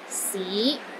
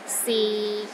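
First: The pitch starts low and rises to middle. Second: The pitch is low and steady throughout. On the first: "It starts low, then rises to the middle of your range" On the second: "the sixth tone is low and steady"

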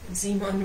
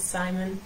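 First: The name is said with a German pronunciation. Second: The name is said with an English pronunciation. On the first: "I think I pronounce it quite German, like I would pronounce Simon" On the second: "which in English is Simon"

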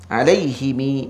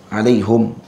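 First: The h and m take i, ending in long i. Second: The h takes u and the m is closed. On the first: "bikasril ha wal mim wal ilhaqi ya ba'dal kasrah" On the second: "dengan dhammahkan ha dan sukunkan mim"

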